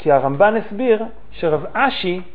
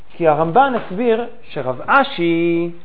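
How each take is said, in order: The two takes are said the same way.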